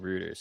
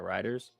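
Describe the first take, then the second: First: The first syllable sounds like 'roo'. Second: The first syllable sounds like 'rye'. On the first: The speaker calls it wrong. "I said rooters" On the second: The speaker calls it right. "Yeah, riders"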